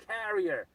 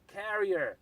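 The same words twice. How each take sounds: The two takes are said the same way.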